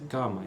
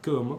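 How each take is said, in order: First: The stressed vowel is oral, not nasalized. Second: The stressed vowel is nasalized. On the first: The speaker calls it wrong. "não dá para ser cama" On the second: The speaker calls it right. "é sempre cama, porque tem um E e esse A nasal"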